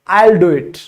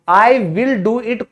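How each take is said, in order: First: The word 'will' is shortened onto 'I'. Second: The word 'will' is said in full. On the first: The speaker calls it right. "आई विल को आज से आप क्या कहोगे" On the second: The speaker calls it wrong. "कोई नहीं कहता English में"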